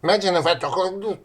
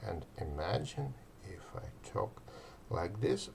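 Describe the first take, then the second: First: Fast, high and loud overexcited talk; hyper excited. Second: Soft, settled, even delivery; calm them down gently; slightly calm. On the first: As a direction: bounce off the walls with energy. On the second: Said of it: "but not overly calm". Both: Shown as a demonstration.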